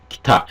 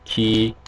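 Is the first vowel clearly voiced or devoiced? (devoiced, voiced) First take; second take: devoiced; voiced. First: The first vowel is devoiced, nearly silent. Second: The first vowel is fully voiced. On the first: The speaker calls it right. "무성화돼서 기타 ... 이렇게 발음해요" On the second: The speaker calls it wrong. "기, 타 이렇게 발음하시는 게 아니라"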